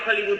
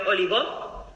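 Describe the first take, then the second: First: It is pronounced the usual English way. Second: It is read letter by letter with Spanish sounds. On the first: The reader knows the word. The speaker calls it right. "¿alguien pronuncia Hollywood" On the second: The reader does not know the word. The speaker calls it wrong. "diciendo Oligo"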